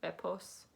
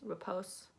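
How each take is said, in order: First: The middle consonant is a hissing s sound. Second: The same.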